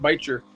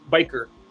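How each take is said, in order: First: The middle consonant is a soft sound. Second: The middle consonant is a hard k sound. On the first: "I've always called it bicher" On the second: "some use the the hard the hard C"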